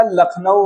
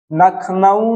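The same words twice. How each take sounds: First: लखनऊ said "lakhnau", starting on l; correct form. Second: लखनऊ said "nakhnau", starting on n; wrong form. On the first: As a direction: open लखनऊ with a clear l. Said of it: "लखनऊ होगा". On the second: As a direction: swap the first l of लखनऊ for n. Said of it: "लखनऊ नहीं होगा". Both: Shown as a demonstration.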